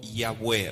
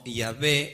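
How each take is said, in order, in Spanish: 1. La consonante del medio es un sonido de w. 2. La consonante del medio es un sonido de v. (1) "el nombre fue revelado como Yahweh" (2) "Yahvé es incorrecto"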